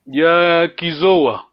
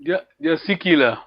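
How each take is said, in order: First: Dia Kizoa said slowly, weight on the first syllable Dia; stress on the first syllable. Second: Dia Sikila said quickly, with no lengthened syllable; quick comparison take. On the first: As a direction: lean on Dia, then let Kizoa fall away, slowly. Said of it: "The first sy-, syllable". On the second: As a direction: rattle off Dia, Dia Sikila fast, vowels kept short. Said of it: "we need to compare it here". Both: Shown as a demonstration.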